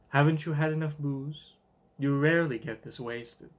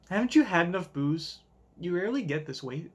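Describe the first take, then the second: First: It is said in a sultry voice. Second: It is said in a plain voice.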